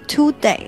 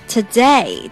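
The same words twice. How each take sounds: First: The first syllable has a full 'too' vowel. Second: The first syllable has a weak, reduced vowel. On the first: The speaker calls it wrong. "有人发today" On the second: The speaker calls it right. "t o 发t，不要发to"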